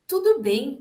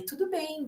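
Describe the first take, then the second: First: "tudo bem" higher and louder with a bright rise, brushing it off; falsely breezy reassurance. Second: "Tudo bem" said higher and softer, gently comforting; soft reassurance. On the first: Doctor minimizing a patient's cancer, falsely cheerful. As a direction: wave the worry away with a chirpy "tudo bem". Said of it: "Evitar, minimizar ou mudar de assunto". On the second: Professional soothing a crying patient, soft and high. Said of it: "Dizendo ali". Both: Shown as a demonstration.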